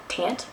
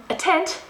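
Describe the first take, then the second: First: "tent" said off, as a doubtful question; unsure, softer "tent?" with a slipped sound; slipped pronunciation. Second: "tent" said carefully, pitched high; high, deliberate "tent" after a slip; corrected pronunciation. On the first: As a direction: stumble on "tent", querying your own vowel. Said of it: "that was dangerously, no, no". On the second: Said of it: "no, no". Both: Real, not acted.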